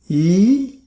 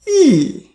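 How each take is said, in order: First: The pitch rises from mid to high. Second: The pitch falls sharply from high to low. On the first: "Second tone, ... going up" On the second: "Fourth tone ... from top to bottom"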